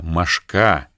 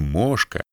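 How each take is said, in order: First: The stress falls where Siberian speakers put it. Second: The stress falls where standard speakers put it. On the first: This stress conveys the insect's power and the pain of its bite. "а «мошка». Ударение раскрывает всю мощь" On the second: This is the standard form that editors accept. "в Сибири говорят не «мошка»"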